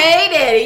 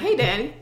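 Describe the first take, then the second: First: It has an exaggerated accent with extra kick. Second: It is said plainly without the extra kick.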